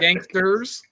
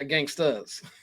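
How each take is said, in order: First: The R sound is clearly pronounced. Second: The R sound is dropped. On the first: It refers to mob gangsters. "the hard R" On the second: It refers to hip-hop gangstas. "the soft with the no R"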